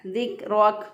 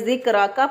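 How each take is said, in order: First: The word ends on a bare consonant. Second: The word ends with an added vowel. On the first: The speaker calls it right. "दुरुस्त अदायगी है" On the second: The speaker calls it wrong. "अगर कोई साकिन ना करे"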